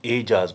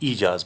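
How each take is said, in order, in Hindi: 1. यह शब्द 'e' स्वर से शुरू होता है। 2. यह शब्द लंबे 'ee' स्वर से शुरू होता है। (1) "हम ए साउंड के साथ ये लफ्ज़ बोलते हैं" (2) "अगर हम ज़ेर से बोलेंगे तो ये ईजाज बनेगा"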